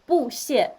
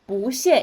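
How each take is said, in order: First: The first syllable has a falling fourth tone. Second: The first syllable has a rising second tone. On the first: The speaker calls it wrong. "instead of 不谢" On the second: The speaker calls it right. "不谢 instead of"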